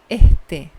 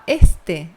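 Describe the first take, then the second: First: The s is breathed out like an h. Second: The s is a clear hissing sound. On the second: "Em vez de falar este"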